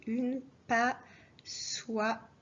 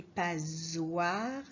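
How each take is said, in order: First: Une stressed slowly before passoire. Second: Said in the usual way. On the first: Shown as a demonstration. Teacher insisting the article une is part of it. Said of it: "mais j'ai dit une passoire". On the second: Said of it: "Alors attention".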